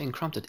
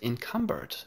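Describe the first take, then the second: First: An r sound follows the c, with a p. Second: No r follows the c; it ends in -bered. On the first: The speaker calls it wrong. "I always say encrumpted" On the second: The speaker calls it right. "Maybe I still pronounce it wrong"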